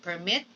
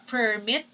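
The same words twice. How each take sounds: First: "permit" as per-MIT; stress on second syllable. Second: "permit" as PER-mit; stress on first syllable. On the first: Teacher recapping the difference, "permit" stressed on MIT. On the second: Teacher recapping the difference, "permit" stressed on PER. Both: Shown as a demonstration. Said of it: "You see the difference".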